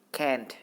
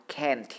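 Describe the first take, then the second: The two takes are said the same way.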